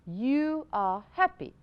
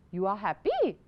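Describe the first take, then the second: First: The voice falls at the end like a statement. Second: The voice rises at the end like a question. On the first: It is stated as a fact. The speaker calls it right. "මේක හරියටම ඇවිල්ලා" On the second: It is asked as a question. The speaker calls it wrong. "අපි question එකක tone එකෙන් තමයි you are happy කියලා අහන්නේ"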